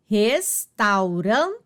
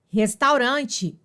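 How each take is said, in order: First: "restaurante" slowly, res-tau-ran-te; divisão silábica. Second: Said in the usual way. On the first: Shown as a demonstration. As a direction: break "restaurante" into syllables, keeping tau whole. ("restaurante" bem devagar, sílaba por sílaba) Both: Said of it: "na mesma sílaba".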